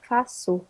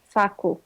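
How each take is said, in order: First: The middle consonant is an s sound. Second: The middle consonant is a k sound. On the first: "instead of k, you pronounce it s" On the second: "if it didn't have that thing on the bottom, you would pronounce it faku"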